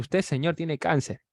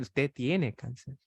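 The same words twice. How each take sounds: First: Said in the usual way. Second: Slow and softer, each word weighed: Usted tiene cáncer; a doctor repeating the verdict slowly; slow, firm diagnosis. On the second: Acted.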